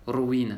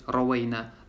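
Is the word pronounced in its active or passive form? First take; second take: passive; active. First: The word is voiced as the passive form. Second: The word is voiced as the active form. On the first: It was narrated to us. "А есть можно как «Мабниюн лиль мачуль»" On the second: We narrated it. "Альфиолюль малды мабниюн лиль маалюм"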